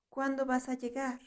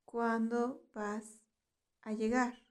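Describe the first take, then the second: First: Said in the usual way. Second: "¿Cuándo vas a llegar?" slowed, with a pause before "a llegar". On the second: Shown as a demonstration. Teacher repeats phrase slowly for learners.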